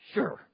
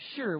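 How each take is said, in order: First: It is said flatly and curtly. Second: It is said with a melodic, lilting tune.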